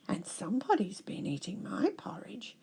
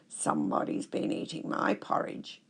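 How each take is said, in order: First: It is said without a growl. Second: It is said in a growling voice.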